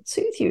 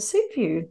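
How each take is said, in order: First: Soothing lilt. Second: Said in the usual way. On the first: Shown as a demonstration. Co-host explaining stroking pets, in a high cooing lilt. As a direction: soothe you lifted much higher, sing-song. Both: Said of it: "really does calm and soothe you".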